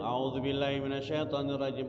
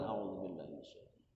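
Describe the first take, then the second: First: It is said loudly. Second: It is said quietly. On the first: The speaker calls it wrong. "Jangan kencang" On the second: The speaker calls it right. "harus pelan"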